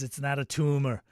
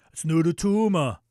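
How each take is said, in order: First: Said in the usual way. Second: Put-on Arnold accent. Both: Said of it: "[name] says".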